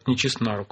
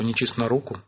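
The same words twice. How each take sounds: First: The stress falls on the preposition 'на'. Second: The stress falls on the noun 'руку'. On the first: The speaker calls it right. "то только не чист на руку" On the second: The speaker calls it wrong. "как-то пока еще никто не говорит"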